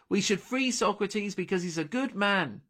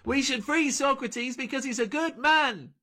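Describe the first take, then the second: First: It is spoken loudly and clearly, projected. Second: It is screamed at very high volume. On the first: The speaker calls it right. "Delphi said, loudly and clearly" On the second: The speaker calls it wrong. "Delphi screamed"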